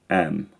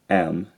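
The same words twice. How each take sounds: First: The vowel stays one steady quality. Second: The vowel glides between two qualities. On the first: "the am vowel is a monophthong" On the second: "instead of am"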